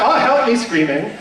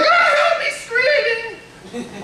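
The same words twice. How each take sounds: First: It is delivered with plain, normal enunciation. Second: It is delivered with odd, weird enunciation.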